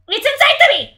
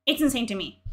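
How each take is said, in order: First: High, loud yell of disbelief; incredulous outburst. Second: Said in the usual way. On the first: Real, not acted. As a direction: explode in outraged disbelief. Incredulous outburst repeating the line.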